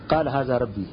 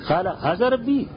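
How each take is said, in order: First: It is said as a plain, flat statement. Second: It is said with a questioning, incredulous tone. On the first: The speaker affirms that this is his lord. The speaker calls it wrong. "ہمارے استاد صاحب اس کو ایسا نہیں پڑھتے تھے" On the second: The speaker implies that this is not his lord. The speaker calls it right. "ایسے پڑھا کرتے تھے"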